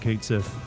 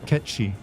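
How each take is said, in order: First: The name is said like 'kate sith'. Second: The name is said like 'ketchi'. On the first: "given the way it's spelled, almost everyone has always called it" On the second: "if you pronounce it the correct way"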